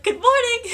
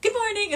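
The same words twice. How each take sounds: First: High, loud mock-cheery greeting; hammed-up cheerful good morning; Bellatrix greeting. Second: High, bright mock-cheery repeat; Bellatrix greeting. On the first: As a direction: sing out a sugary hello. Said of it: "she was like". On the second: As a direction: chirp the greeting once more. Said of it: "It's like".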